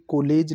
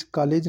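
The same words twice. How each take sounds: First: कॉलेज said as "kolej"; careful "KO-lej" for कॉलेज; correct vowel. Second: कॉलेज said as "kaalej"; wrong vowel. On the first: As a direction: round the first vowel of कॉलेज to o. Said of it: "कॉलेज लिखा जाएगा". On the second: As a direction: open the first vowel of कॉलेज to aa. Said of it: "कॉलेज नहीं". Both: Shown as a demonstration.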